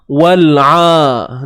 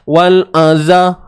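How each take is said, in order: First: The sound is made in the throat, not nasal. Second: The sound is nasal, resonating through the nose. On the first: The speaker calls it right. "Ni kerongkong kita" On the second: The speaker calls it wrong. "dia bunyi sengau tu"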